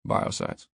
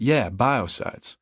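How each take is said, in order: First: Low-key, unvoiced-sounding mutter of BIOCIDES. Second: Said in the usual way. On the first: A narrator's reading. Leon supplies the forgotten word from behind, muttering. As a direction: mutter BIOCIDES almost without voice. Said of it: "Leon mutters". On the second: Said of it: "And I repeat".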